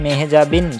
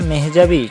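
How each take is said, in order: First: The name ends with a final n sound. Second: The name ends without a final n sound. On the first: The speaker calls it wrong. "তোমরা সবাই হয়তোবা জানো যে তার নাম মেহজাবিন Chowdhury" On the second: The speaker calls it right. "তার নামের শেষে এন উচ্চারণটা হবে না"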